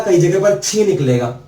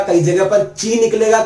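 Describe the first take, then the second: First: छी said with a puff of air; छी as "chhee", like छतरी's first sound; aspirated chhi. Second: ची said with plain ch, no puff; ची as a clean "chee"; unaspirated chi. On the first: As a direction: aspirate the start of छी. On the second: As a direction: keep ची unaspirated. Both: Shown as a demonstration.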